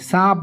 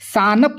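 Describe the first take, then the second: First: The n is only a light nasal sound. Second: The n is pronounced as a full consonant. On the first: The speaker calls it right. "आवाज़ मुकम्मल नहीं निकलती है, नाक से निकलती है" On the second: The speaker calls it wrong. "हम लोग सानप नहीं बोलते हैं"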